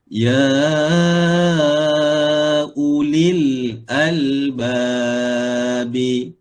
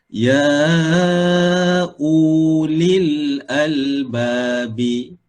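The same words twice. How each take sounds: First: The waw sound is left silent. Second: The waw sound is pronounced aloud. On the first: The speaker calls it right. "waw ini tidak ada fungsi. Maka kita baca ya ulil albabi" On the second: The speaker calls it wrong. "jangan dibaca ya ulil albabi. Ha, itu bacaan yang tidak tepat"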